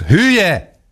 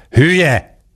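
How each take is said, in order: First: Még magasabb, éles ordítás: „Hülye!”; kiáltás. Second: Magas, dühös felkiáltás: „Hülye!”; kiabálás. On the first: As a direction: szinte visítsa a „Hülye!” szót. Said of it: "kiáltotta ismét". (dühös, magas ordítás) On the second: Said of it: "kiabálta Török Ádám". (dühös kiáltás) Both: A narrator's reading.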